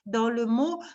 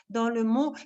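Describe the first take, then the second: No difference in how they are said.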